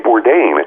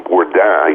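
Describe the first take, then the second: First: The name is said with an American pronunciation. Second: The name is said with a French pronunciation. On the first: This is the name he grew up with. "in America, you know, you say Bourdain" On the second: This is how people in France would say it. "if I were living in France, people would call me Bourdin"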